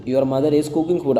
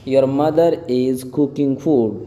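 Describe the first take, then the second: First: Moderately slow, connected teacher delivery; quicker repeat. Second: Very slow, spaced-out English words; slow model reading. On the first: Teacher repeating the translation for learners, more connectedly. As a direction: run the words together a little more. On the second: Teacher translating a sentence for learners, very slowly. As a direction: draw each word out for learners. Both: Shown as a demonstration.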